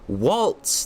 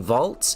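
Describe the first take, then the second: First: The name begins with a W sound. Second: The name begins with a V sound. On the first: The speaker calls it right. "The V is a W" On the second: The speaker calls it wrong. "I've been pronouncing his name incorrectly"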